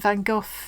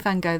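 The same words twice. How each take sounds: First: It uses the usual British English pronunciation. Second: It uses the American English pronunciation. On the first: "I think we don't say that right" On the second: "I think the Americans say Van Gogh. That's not right either"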